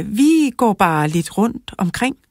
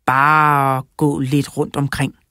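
First: Higher-pitched, lightly voiced child; a hint of a girl's higher voice; girl's evasive answer. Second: Slow, lightly voiced old man; old man musing. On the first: Lara answering Sigurd Skrot, lightly voiced girl. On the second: Sigurd Skrot echoing Lara's answer, musing slowly. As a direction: draw the words out slowly, musing. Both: A narrator's reading.

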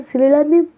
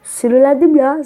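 First: Said in the usual way. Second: A burst of real frustration at the game; annoyed. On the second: Real, not acted. Gamer fed up with a level, telling viewers, annoyed.

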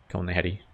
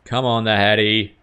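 First: Said in the usual way. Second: Louder urging. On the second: Real, not acted. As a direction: Come on, the Hattie pushed out louder with hope.

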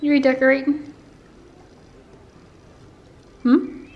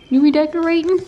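First: High teasing question; higher pet voice. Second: Much higher and louder again on redecorating; louder repeat. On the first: Asking the cat about redecorating, high and louder. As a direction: raise it up and ask brightly. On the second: Repeating the question to the cat, higher and louder. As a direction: call the question out loud. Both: Real, not acted.

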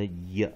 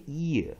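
First: "也" as one low syllable, "yuh"; "也" as a single glide plus schwa; consonant Y. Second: "也" split into two syllables, "ee-uh"; "也" as a drawn-out "ee-yuh", the I kept as a vowel; separate-vowel mispronunciation. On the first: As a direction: say "也" with I turned into a Y glide. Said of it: "子音也". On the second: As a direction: say "也" with a full "ee" before the vowel. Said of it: "所以它不念也". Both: Shown as a demonstration.

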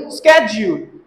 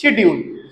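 First: स्केड्यूल as low "SKED-jool"; hard sk, long "jool" in स्केड्यूल; American schedule. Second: शेड्यूल as "SHED-yool"; British schedule. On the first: Teacher repeating the American form, स्केड्यूल as "SKED-jool". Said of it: "American वा". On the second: Teacher giving British usage, शेड्यूल starting with "sh". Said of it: "British शेड्यूल". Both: Shown as a demonstration.

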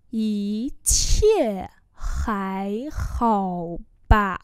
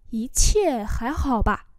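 First: Ý chia hái hò bà, each syllable apart; slow demonstration. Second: Said in the usual way. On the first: Shown as a demonstration. Teacher repeats a phrase for learners, slowly.

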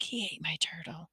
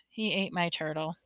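First: Breath-only confiding whisper. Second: Soft, voiced murmur; subdued. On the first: Boy telling a woman about his brother, whispered. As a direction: whisper it as a secret. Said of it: "I whispered back". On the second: Boy telling the ambulance attendant, subdued. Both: A narrator's reading.

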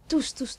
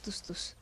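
First: Said in the usual way. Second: Whispered menacing repeat. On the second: Real, not acted. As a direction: breathe the words as a threat. (chuchoté menaçant)

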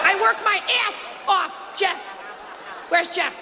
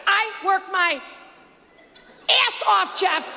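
First: Paula impression. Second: A hint of Paula whining about hard work; Paula impression. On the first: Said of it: "I walk around my house all day saying it". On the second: Comedian mimics Paula complaining to Jeff, mild mock whine. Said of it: "she said on that show".

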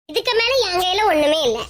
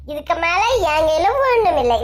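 First: Said in the usual way. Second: Mock crying. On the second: Visitor leaving the rival's house, with hammed-up mock crying. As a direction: fake tearful wail on ஒண்ணும், hammed-up sorrow.

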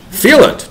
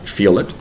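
First: "Feel it" much higher and louder, FEEL hit hard; emphatic repeat. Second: Said in the usual way. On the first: Shown as a demonstration. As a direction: insist on "Feel it", FEEL jumping up high. Urging parents to feel the bad.

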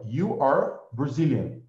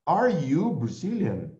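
First: Said in the usual way. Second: Are you Brazilian said slowly as a question; slow, clear question Are you Brazilian; slow teacher demo of a question; question tune. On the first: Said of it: "Eu afirmo". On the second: Shown as a demonstration. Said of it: "Se eu quero perguntar".

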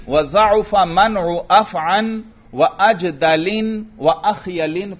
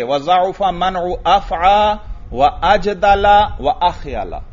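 First: Slow recitation, अफ़अन closing on n; measured reading with tanween n on अफ़अन, अजदलिन, अख़यलिन; munsarif reading. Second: Slow recitation, अफ़आ open, अजदला ending -la; measured reading with no n on अफ़आ, अजदला, अख़यला; gair munsarif reading. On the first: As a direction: end अजदलिन and अख़यलिन in -lin. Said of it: "पढ़ेंगे मुनसरिफ वाली सूरत पर". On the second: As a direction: end अख़यला on plain -a, no tanween. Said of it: "गैर मुनसरिफ ही पढ़ेंगे". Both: Shown as a demonstration.

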